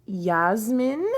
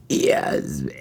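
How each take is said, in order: First: Said in the usual way. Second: Burped, high-pitched name; burping the words. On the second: Shown as a demonstration. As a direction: burp out the word Yasmin. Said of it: "I can do a better one".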